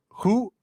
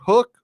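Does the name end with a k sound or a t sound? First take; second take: t sound; k sound. First: The name ends with a t sound. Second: The name ends with a k sound. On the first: "Do you pronounce it hoot or hook or?" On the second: "Do you pronounce it hoot or hook or?"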